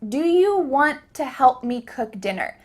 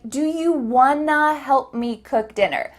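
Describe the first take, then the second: First: Want to is said as two full words. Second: Want to is reduced to wanna. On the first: "You just heard me ask" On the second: "But this question actually sounded like"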